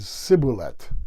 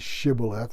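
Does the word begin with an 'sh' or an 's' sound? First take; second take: s; sh. First: The word begins with an 's' sound. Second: The word begins with an 'sh' sound. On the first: "Instead, they said sibboleth" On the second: "The Ephraimites couldn't say shibboleth"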